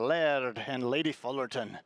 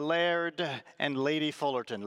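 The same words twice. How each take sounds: First: It is said in a Scottish accent. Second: It is said in the speaker's ordinary accent.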